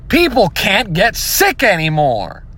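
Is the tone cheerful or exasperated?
exasperated. It sounds exasperated, like a complaint.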